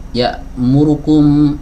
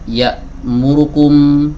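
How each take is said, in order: The two takes are said the same way.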